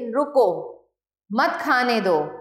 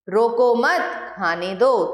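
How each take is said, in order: First: There is a pause after the first word. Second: There is a pause after the second word. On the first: Stop him; do not let him eat. "अलग अलग स्थानों पर रुकने के कारण" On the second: Do not stop him; let him eat. "दूसरे वाक्य का अर्थ उसका उल्टा है"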